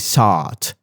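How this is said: The vowel is a rounded aw-like sound. "In British, maybe they say sought"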